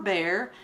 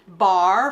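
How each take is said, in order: First: It is said with a standard American accent. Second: It is said with a Southern Appalachian accent.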